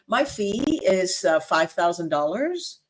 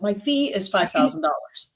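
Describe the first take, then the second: First: The voice hesitates and sounds unsure of itself. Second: The voice is steady and sounds sure of itself. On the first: The speaker doubts the price is worth it. The speaker calls it wrong. "It doesn't sound like you believe in that" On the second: The speaker believes the price is worth it. The speaker calls it right. "is sounding more confident"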